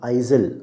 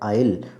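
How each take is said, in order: First: The s sound is pronounced in the word. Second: The s sound is silent in the word. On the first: The speaker calls it wrong. "अब आइजल नहीं है" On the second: The speaker calls it right. "इसका उच्चारण है आयल"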